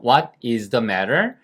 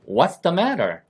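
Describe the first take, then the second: First: "What is" is said as two full words. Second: "What is" is shortened to one syllable.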